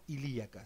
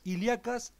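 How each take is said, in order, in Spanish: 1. La 'i' antes de la 'a' es tónica, es una sílaba separada. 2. La 'ia' es una sola sílaba, con acento en la 'a'. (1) "y no" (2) "en realidad es sin acento"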